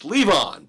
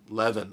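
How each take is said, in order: First: The last syllable sounds like 'on'. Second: The last syllable sounds like 'in'. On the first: This is how the speaker thinks the name should be said. The speaker calls it right. "It's Levon, baby" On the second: This is how the film says the name. The speaker calls it wrong. "in the movie they call him Levin"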